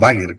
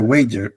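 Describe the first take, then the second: First: The name is said with the local pronunciation. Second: The name is said with an English pronunciation. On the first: This is how people here call it. "como le decimos" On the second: This is the form the British accept. "Por eso te dije Wager"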